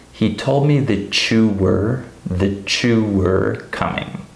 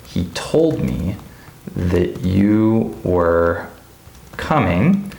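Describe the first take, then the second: First: "that you" pronounced "tha-chew", repeated slowly; linked that-chew. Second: Slow, word by word, "that you" kept separate; careful, unlinked. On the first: Teacher shows the real pronunciation, linked tha-chew. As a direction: merge t and y into ch in "that you". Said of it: "This would be pronounced". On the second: Teacher sets out the example sentence, slow separate words. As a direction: pause between chunks, full y in "you". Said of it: "So for example". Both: Shown as a demonstration.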